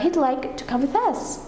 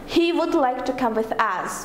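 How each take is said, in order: First: 'He would' is contracted into one syllable. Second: 'He would' is said as two full words. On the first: The speaker calls it right. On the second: The speaker calls it wrong.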